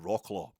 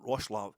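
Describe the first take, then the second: First: The name is read out as it is spelled. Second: The name is said closer to the local form. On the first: "I would call them Wroclaw in the privacy of my own home" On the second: "Is it Roslav?"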